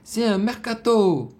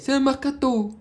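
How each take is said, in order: First: The phrase is said slowly and drawn out. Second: The phrase is said quickly and clipped. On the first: The speaker calls it right. "il aurait dû le ralentir" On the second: The speaker calls it wrong. "C'est pas comme ça que tu étais censé le prononcer"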